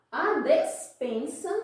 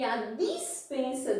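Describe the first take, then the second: First: "despensa" said slowly and higher, with an E in the first syllable; clear E pronunciation. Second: "dispensa" with a distinct I in the first syllable; clear I pronunciation. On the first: Teacher contrasting paronyms for the class, careful E in "despensa". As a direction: spell out the "des" of "despensa" by ear, slowly. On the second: Teacher contrasting paronyms for the class, careful I in "dispensa". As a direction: make the "dis" of "dispensa" clearly an I sound. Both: Shown as a demonstration. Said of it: "e pronúncia parecida".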